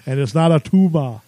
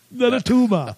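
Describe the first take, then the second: First: Said in the usual way. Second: Put-on higher Austrian-accented movie-star voice; a quick Austrian accent send-up; Arnold Schwarzenegger impression. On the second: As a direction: repeat it like Arnold in Kindergarten Cop. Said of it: "the greatest Arnold quotes".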